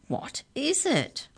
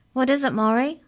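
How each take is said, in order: First: High, slow, drawn-out question; repeated high question. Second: High, loud booming question; higher-pitched booming giantess. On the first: Giantess repeats her question on spying Mallory, high and slow. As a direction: stretch it out high, without shouting. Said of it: "she repeated". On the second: Giant cook asks her partner, high and booming. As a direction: boom it out in a high voice. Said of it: "Her voice was higher pitched, but equally booming". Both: A narrator's reading.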